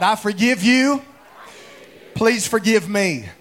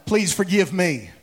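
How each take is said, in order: First: Out loud. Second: Sincere plea. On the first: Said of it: "everybody say it out loud". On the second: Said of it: "Look at your other neighbor and tell 'em". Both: Shown as a demonstration.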